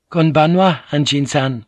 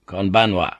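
First: Higher, louder polite maid's bow-greeting; a timid maid greets him politely. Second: Said in the usual way. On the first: Acted. Maid greets the Anjin-san, higher polite voice. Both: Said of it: "he replied".

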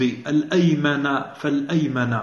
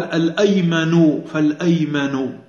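First: الأيمن فالأيمن ending in a clear "-a" on both words; accusative "-a" endings. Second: الأيمن فالأيمن ending in a drawn-out "-u" on both words; nominative "-u" endings. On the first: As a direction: slowly read الأيمن فالأيمن as "al-aymana fal-aymana". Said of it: "بعضهم قال هي بالنصب". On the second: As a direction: slowly read الأيمن فالأيمن as "al-aymanu fal-aymanu". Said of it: "ومنهم من ضبطه بالرفع". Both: Shown as a demonstration.

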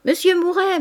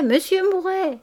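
First: High, bright calling of his name, higher; ladies calling out. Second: High calling of his name, falling at the end; insist, calling him over once more; ladies calling again. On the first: Ladies in the salon calling Mouret over, high and playful. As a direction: call him from across the salon. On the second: Ladies in the salon calling Mouret over, high and insistent. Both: A narrator's reading. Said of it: "Des voix répétaient au milieu de légers rires".

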